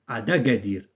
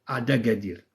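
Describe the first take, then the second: Both takes have the same delivery.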